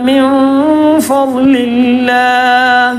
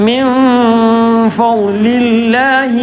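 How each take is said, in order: Both takes have the same delivery.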